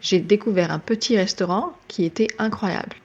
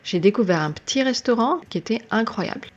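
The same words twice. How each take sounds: First: Every syllable of petit is fully pronounced. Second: Part of petit is dropped, said quickly. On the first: "Instead of saying" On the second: "petit also gets the same treatment"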